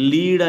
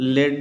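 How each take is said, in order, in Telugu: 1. ఈ అచ్చు పొడవైన 'ee' శబ్దం. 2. ఈ అచ్చు పొట్టి 'e' శబ్దం. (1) "దీన్ని లీడ్ అని చెప్తాం" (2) "దీన్ని లెడ్ అని చెప్తాం"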